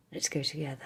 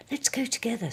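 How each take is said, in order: First: Said in the usual way. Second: Higher, louder eager Pooh; Pooh's voice. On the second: Acted. Pooh inviting the boy along, higher eager voice. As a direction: lift it up like the bear inviting.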